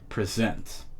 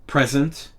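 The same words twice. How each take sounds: First: The stress is on the second syllable. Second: The stress is on the first syllable. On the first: It is used as a verb. "the verb present ... you have the tone on sent" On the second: It is used as a noun. "the noun present ... you have the tone for the noun on pre"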